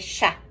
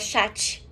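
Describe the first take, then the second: First: The final t sound is silent. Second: The final t sound is pronounced. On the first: The speaker calls it right. "é chá" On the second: The speaker calls it wrong. "Não é chat"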